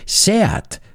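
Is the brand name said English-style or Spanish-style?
Spanish. The name is said with a Spanish-style pronunciation. The speaker calls it right. "me decían, no, es Seat"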